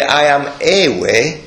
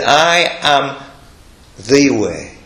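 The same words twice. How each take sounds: First: Slow quote leaning on "a" in "I am a way"; stress on A. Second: Slow, "the" set apart after a pause; stress on THE. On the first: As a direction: stress the article "a" as the word to reject. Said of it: "he didn't say". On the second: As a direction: pause after "I am", then lean on "the". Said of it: "He said". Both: Retold or imitated.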